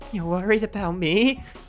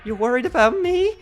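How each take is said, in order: First: The voice stays steady throughout. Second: The voice cracks partway through.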